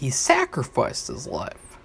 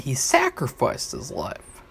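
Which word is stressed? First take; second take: sacrificed; sacrificed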